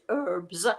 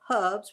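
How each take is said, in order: First: It has an American accent with a silent h. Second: It has a British accent with the h sounded.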